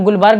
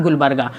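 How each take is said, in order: First: गुलबर्ग ending on the g, without the final aa; common mispronunciation. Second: गुलबर्गा with a final long aa after the g; correct place name. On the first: Teacher quoting how many people say the place name, mispronounced without final aa. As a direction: say गुलबर्ग cut short of its last vowel. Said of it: "बहुत से लोग गुलबर्ग भी बोलते हैं". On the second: Teacher correcting students on the place name, pronounced with final aa. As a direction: finish गुलबर्गा on an open aa. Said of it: "और वो होता है गुलबर्गा". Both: Shown as a demonstration.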